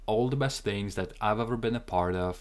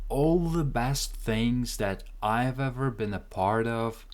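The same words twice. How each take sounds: First: It is spoken at a faster pace. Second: It is spoken at a slower pace. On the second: "Let's try the whole thing together"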